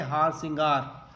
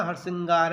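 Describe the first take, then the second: First: हार श्रृंगार with a long first vowel, "haar singaar"; Hindi form haar singaar. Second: हार श्रृंगार with a short first vowel, "har-singaar"; written form harsingar. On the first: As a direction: draw out the "aa" in हार, then "singaar". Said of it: "इसको हिंदी में कहते हैं". (हिंदी रूप, लंबे "आ" से हार सिंगार) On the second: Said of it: "हार श्रृंगार लिखा हुआ है ना". (लिखा हुआ रूप, छोटे "ह" से हरसिंगार) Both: Shown as a demonstration.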